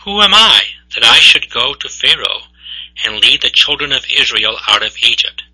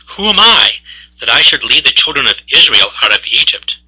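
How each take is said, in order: First: Said in the usual way. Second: Doubting Moses. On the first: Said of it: "But Moses said to God". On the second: Acted. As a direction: blurt it out like an overwhelmed everyman. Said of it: "Moses answers in a very typical fashion for us mere mortals".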